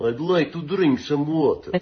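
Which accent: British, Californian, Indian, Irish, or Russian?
Russian. It is said in a Russian accent.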